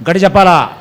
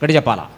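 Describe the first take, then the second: First: The question pushed out louder to the crowd, with a falling end; louder call. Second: Said in the usual way. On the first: Shown as a demonstration. Preacher urging the congregation to answer louder, raised voice.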